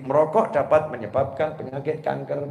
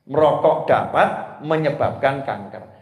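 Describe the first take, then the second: First: It is read as one smooth phrase. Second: 'Merokok dapat' is set apart before the rest.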